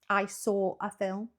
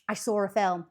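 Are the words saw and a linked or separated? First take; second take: separated; linked. First: Saw and a are said separately, without linking. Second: Saw flows quickly into a with a linking sound. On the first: "if I had to break that up, it would separate those words quite heavily" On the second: "if I was to say it quite quickly"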